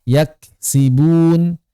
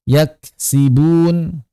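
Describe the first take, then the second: No difference in how they are said.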